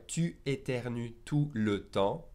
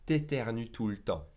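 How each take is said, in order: First: Said in the usual way. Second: "t'éternues tout le temps" run together, tu cut to t; contracted pronunciation. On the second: Shown as a demonstration. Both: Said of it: "will be pronounced".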